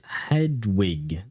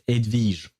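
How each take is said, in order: First: The name is said with English pronunciation. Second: The name is said with French pronunciation. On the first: "Is that how you pronounce it in English?" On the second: "in French we pronounce it"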